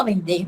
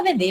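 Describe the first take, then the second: First: "vender" with the final R sounded; pronounced final R. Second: "vender" as "vendê", no R; dropped final R. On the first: Teacher showing what nobody says, pronounced R. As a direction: keep the R ending "vender". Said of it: "Ninguém fala vender". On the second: Teacher showing everyday speech, dropped R. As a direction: end "vender" on stressed "ê". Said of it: "a gente fala vender". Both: Shown as a demonstration.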